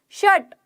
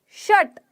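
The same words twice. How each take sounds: Both takes have the same delivery.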